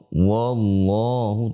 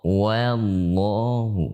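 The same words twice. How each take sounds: First: The opening wa sounds heavy and darkened. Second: The opening wa sounds light and thin. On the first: The speaker calls it wrong. "Tidak boleh dibaca waw wallahu" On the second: The speaker calls it right. "tapi wa"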